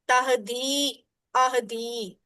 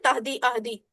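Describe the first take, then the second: First: The final vowels are lengthened and held smoothly. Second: The final vowels are cut off abruptly and short. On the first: A ya follows the dal. The speaker calls it right. "इससे पता चलता है कि दाल जेर दी के बाद या भी है" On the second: Nothing is pronounced after the dal. The speaker calls it wrong. "एकदम से झटका दे के नहीं बोलना"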